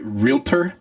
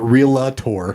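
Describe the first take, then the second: First: It is said without rhyming with Skeletor. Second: It is said rhyming with Skeletor. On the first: The speaker calls it right. "I said it right, right?" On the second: The speaker calls it wrong. "It's not realtor. It's like Skeletor"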